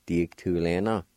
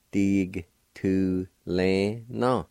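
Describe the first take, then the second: First: Said in the usual way. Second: "Dig tu le na" drawn out very slowly, falling on "na"; slow demo. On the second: Shown as a demonstration. Teacher slowly modelling the Cherokee word for learners. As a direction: stretch "Dig tu le na" long and even. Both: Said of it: "like this if you want to".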